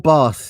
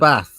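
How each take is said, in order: First: Bath is said in a southern accent. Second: Bath is said in a northern accent.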